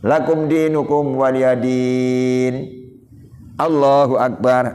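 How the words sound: A short pause comes before "Allahu Akbar". The speaker calls it right. "Diam saya cukup untuk membaca subhanallah"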